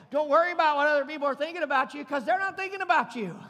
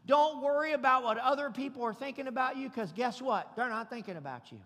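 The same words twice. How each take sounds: First: Driven home louder and quicker; louder, faster repeat. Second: Said in the usual way. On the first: Shown as a demonstration. Preacher repeating the point to the congregation, louder and faster. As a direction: punch it harder the second time. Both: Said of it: "I'm gonna say it again".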